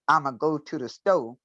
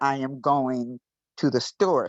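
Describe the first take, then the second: First: The words are squeezed together, endings cut off. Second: Each word is said fully, endings kept. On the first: This is the Gullah way of saying it. "we squeeze some together like I'm a go" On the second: This is the standard English way of saying it. "in standard English"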